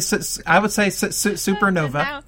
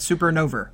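First: The word ends in a plain uh vowel. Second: The word ends in an er sound. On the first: "So I would say supernova" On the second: "and Crichton said supernova"

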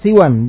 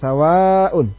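First: The s is followed by a short i. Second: The s is followed by a long a. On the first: "siwan, bi kasri sin wal qasr" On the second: "sawa dengan fathah sin dan mad"

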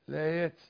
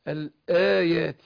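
First: The y sound is weak and barely heard. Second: The y sound is clear and firmly pronounced. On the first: The speaker calls it wrong. "ما قول نصرف الآيات، فين الياء؟" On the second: The speaker calls it right. "محققش واضغط على مخرجها"

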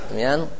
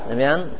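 No difference in how they are said.

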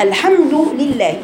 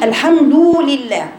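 First: The vowel after d is kept short and light. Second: The vowel after d is stretched into a long u. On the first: The speaker calls it right. "لكن هي الحمد لله" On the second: The speaker calls it wrong. "ما تقوليش الحمد لله، ما تبلغيش في الضمة فيتولد عنها واو مادية"

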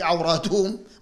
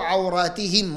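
First: The vowel before -hum is a u sound. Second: The vowel before -hum is an i sound. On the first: The speaker calls it wrong. "مستحيل تكون في مفعول به منصوب بالضمة" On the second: The speaker calls it right. "منصوب لكن بالكسر نيابة عن الفتحة"

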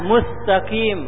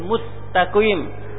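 First: The consonant after mu is a th sound. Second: The consonant after mu is an s sound. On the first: The speaker calls it wrong. "jangan dibaca dengan sa" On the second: The speaker calls it right. "sin mustaqim"

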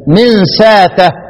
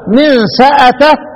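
First: The glottal stop is replaced by a long a. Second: The glottal stop is kept with a vowel. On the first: "وأبدله ... ابدل الايه الهمزة" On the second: "الباقون"

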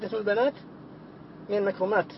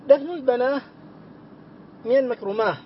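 First: The plural words end with a t sound. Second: The plural words end with an h sound. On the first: This is the usual form. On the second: This is the rare pausal form that was heard from speakers.

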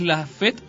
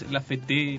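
First: The stress falls on the first E. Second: The stress falls on the last E. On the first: The speaker calls it right. "está el acento en la primera E" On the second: The speaker calls it wrong. "no es La Fete"

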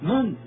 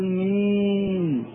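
First: The vowel is a short, harsh 'a' sound. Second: The vowel is a long, fronted 'ee' sound. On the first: The speaker calls it right. "لا من قاسية هكذا" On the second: The speaker calls it wrong. "لا تقل مين، هذه الإمالة لا وجود لها في لسان العرب"

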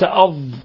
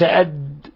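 First: The final consonant is prolonged from the tongue's side. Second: The final consonant is a short, heavy d stop. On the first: The speaker calls it right. "أض وليس" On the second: The speaker calls it wrong. "وليس أد"

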